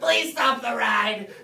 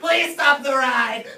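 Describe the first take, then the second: First: It is said at a lower volume. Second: It is said at a higher volume.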